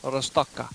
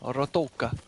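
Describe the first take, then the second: First: An s sound comes before the t sound. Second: There is no consonant before the t sound. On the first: "the Z may be S" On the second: "the Z is sometimes silent"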